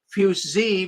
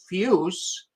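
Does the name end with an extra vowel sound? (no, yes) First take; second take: yes; no. First: The name ends with an extra vowel sound. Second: The name ends without an extra vowel sound. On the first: "I heard one poor person announce it as Fussi" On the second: "as close as I can come to"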